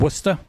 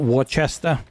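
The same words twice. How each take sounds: First: It sounds like the start of Worcestershire. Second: It does not sound like the start of Worcestershire. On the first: The speaker calls it right. "Like Worcestershire sauce" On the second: The speaker calls it wrong. "It's not Worcester"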